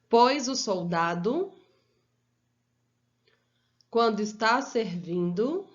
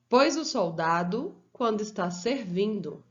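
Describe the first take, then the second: First: It is read slowly with pauses between phrases. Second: It is read at a normal, continuous pace. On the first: "Agora eu vou ler pausadamente" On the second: "Eu vou ler uma vez"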